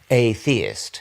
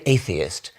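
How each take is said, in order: First: The prefix a- is split off from theist. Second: The word is said the usual way, run together. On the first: It simply means someone who is not a theist. "it gets the meaning across" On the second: It sounds like something sinister. "it sounds like a rather sinister thing"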